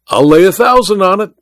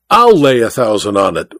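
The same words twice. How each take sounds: First: Boastful cry offering a wager; confident cry. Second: Insist, hitting I'll; dogged, steady reiteration of the bet; reiterated. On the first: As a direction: stake the bet with bravado. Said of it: "cried Welton". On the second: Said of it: "reiterated the Tonopah magnate". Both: A narrator's reading.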